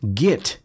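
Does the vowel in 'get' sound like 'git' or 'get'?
git. The vowel sounds like 'git'. The speaker calls it wrong. "certain words you may say"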